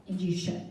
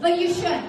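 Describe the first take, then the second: First: Low, quiet retold comeback; understated self-assurance. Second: Higher, sweet retold comeback; sweetly smiling. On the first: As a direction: drop it low and soft, sure of yourself. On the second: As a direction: say it through a really sweet smile. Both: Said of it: "With a really sweet smile".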